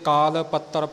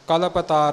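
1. ਇਹ ਵੱਖ ਕਰ ਕੇ kaal pattar ਵਾਂਗ ਬੋਲਿਆ ਜਾਂਦਾ ਹੈ। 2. ਇਹ ਵੱਖ ਕਰ ਕੇ kalap taar ਵਾਂਗ ਬੋਲਿਆ ਜਾਂਦਾ ਹੈ। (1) "ਕਈ ਅਣਜਾਣ ਇੱਥੇ ਕਾਲ ਪੱਤਰ ਪੜ੍ਹ ਜਾਂਦੇ ਨੇ" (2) "ਕਲਪ ਤਾਰ ਇਉਂ ਪੜ੍ਹਦਾ ਹੈ"

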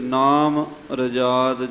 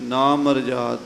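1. ਵੰਡ 'nam' ਤੋਂ ਬਾਅਦ ਹੈ, ਇਸ ਨਾਲ m ਜੁੜਦਾ ਹੈ। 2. ਵੰਡ 'na' ਤੋਂ ਬਾਅਦ ਹੈ, 'marjad' ਤੋਂ ਪਹਿਲਾਂ। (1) "ਕਈ ਵਾਰੀ ਅਣਗਹਿਲੀ 'ਚ ਨਾਮ ਰਜਾਦ ਜਾਂ ਹੋਰ ਤਰ੍ਹਾਂ ਪੜ੍ਹ ਦਿੰਦੇ ਹਨ, ਇਸ ਤਰ੍ਹਾਂ ਨਹੀਂ" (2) "ਨਾ ਮਰਜਾਦ, ਇਹਦਾ ਮਤਲਬ ਮਰਜਾਦਾ ਤੋਂ ਰਹਿਤ"

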